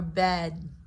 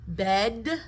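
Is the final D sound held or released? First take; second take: held; released. First: The final D is held without release. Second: The final D is audibly released.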